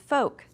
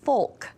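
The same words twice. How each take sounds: First: The L sound is left silent in the word. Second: The L sound is pronounced in the word. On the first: The speaker calls it right. "it's folk" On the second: The speaker calls it wrong. "we don't say folk"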